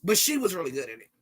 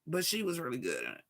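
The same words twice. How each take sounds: First: Said in the usual way. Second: Quiet echo. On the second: Shown as a demonstration.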